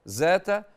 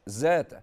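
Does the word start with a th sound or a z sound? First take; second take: z; z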